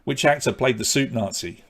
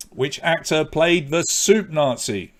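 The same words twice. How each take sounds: First: Said in the usual way. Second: Slow, spelled-out repeat. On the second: Shown as a demonstration. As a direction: let each word land for the room. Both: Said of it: "repeats the question".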